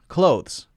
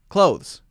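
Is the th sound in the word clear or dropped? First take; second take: dropped; dropped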